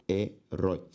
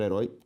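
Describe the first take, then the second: First: "herói" split as he, rói, lower; syllable by syllable. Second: Said in the usual way. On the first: Shown as a demonstration. Teacher separating the word for students, syllable by syllable. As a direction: pause inside "herói". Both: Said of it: "se eu separo herói".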